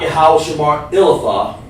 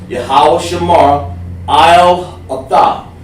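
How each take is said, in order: First: The vowel in 'al' is a short 'ih'. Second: The vowel in 'al' is a long 'eye'. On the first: The speaker calls it wrong. "not not" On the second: The speaker calls it right. "that's what they want to say"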